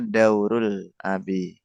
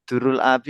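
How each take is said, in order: First: The first vowel is an au diphthong. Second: The first vowel is a plain u sound. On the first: The word means a role. The speaker calls it right. "itu kan harusnya daurul abi" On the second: The word means something different. The speaker calls it wrong. "antum tadi bilangnya dur ya dur"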